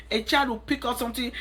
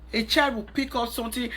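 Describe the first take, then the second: No difference in how they are said.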